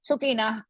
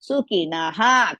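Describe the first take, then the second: First: The word ends without the final 'ha' sound. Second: The word ends with a full 'ha' sound. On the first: The speaker calls it wrong. "sometimes we overlook. We will just say Sukina Kshatriya like that" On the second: The speaker calls it right. "Completely we have to say that"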